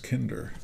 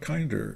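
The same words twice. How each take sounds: First: The first syllable rhymes with 'win'. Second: The first syllable does not rhyme with 'win'. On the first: The speaker calls it right. "it's Kinder. It rhymes with win and sin" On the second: The speaker calls it wrong. "It's not Kinder"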